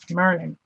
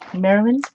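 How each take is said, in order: First: It is squeezed into two syllables, like Merlin. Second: All syllables are said clearly in full.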